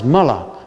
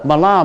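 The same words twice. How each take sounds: First: The stress is on the first syllable. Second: The stress is on the second syllable.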